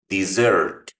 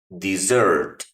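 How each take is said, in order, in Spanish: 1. El acento está en la segunda sílaba. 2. El acento está en la segunda sílaba.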